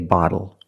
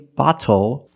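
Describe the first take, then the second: First: The middle consonant is a quick D. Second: The middle consonant is a clear T. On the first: The speaker calls it right. "we say bottle" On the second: The speaker calls it wrong. "we do not say bottle"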